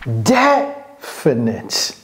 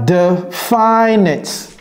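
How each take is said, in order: First: The stress is on the first syllable. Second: The stress is not on the first syllable. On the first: The speaker calls it right. "On met l'accent sur la première syllabe" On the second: The speaker calls it wrong. "Ce n'est pas definite"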